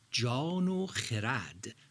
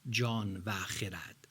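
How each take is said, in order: First: The middle word is a short 'o' sound. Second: The middle word is a full 'va' sound. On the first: The speaker calls it right. "the right pronunciation is or, not va" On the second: The speaker calls it wrong. "not Jan va khirad"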